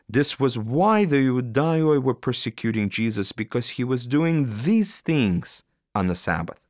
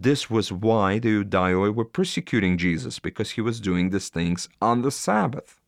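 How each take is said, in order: First: The stress falls on doing these things. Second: The stress falls on the word Sabbath.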